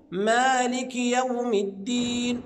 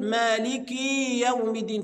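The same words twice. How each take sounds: First: "مالك يوم الدين" recited as maaliki yawmi d-diin; measured recitation of "مالك يوم الدين", short kasra; correct short kasra. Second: "مالك يوم الدين" with maalikii, last i too long; kasra stretched into ya. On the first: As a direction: keep the i of "مالك" short, stretch the final "الدين". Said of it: "طيب الصحيح إيه؟". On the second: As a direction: overstretch the end of "مالك" into a long ee. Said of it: "فيولد من الكسر ياء". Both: Shown as a demonstration.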